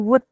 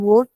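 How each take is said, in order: First: The vowel is an 'oo' sound. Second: The vowel is not an 'oo' sound. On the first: The speaker calls it right. "tapi wood pakai u" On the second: The speaker calls it wrong. "jangan wood"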